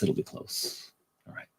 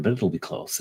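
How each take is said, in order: First: Voiceless, very soft aside; a soft whispered afterthought. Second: Said in the usual way. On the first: Real, not acted. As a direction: breathe it out almost silently.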